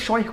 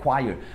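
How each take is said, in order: First: It starts with a ch sound, read as spelled. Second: It starts with a k-w sound, ignoring the h. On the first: The speaker calls it wrong. "Você vai ler choir com certeza" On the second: The speaker calls it right. "essa palavra é choir"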